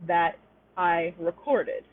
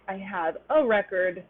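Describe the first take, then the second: First: "recorded" stressed on the second syllable, re-CORD-ed; slowly, weight on CORD in "recorded"; "recorded" with weak re-, strong CORD; verb stress. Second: "record" stressed on the first syllable, REC-ord; "record" said as the noun, REC-ord. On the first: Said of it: "comes before a stressed syllable". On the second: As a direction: hit REC in "record", reduce the ending. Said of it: "the noun". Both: Shown as a demonstration.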